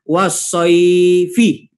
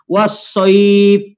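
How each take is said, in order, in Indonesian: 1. Kata itu berakhir dengan vokal akhir yang ditambahkan. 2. Kata itu berhenti pada konsonan akhir.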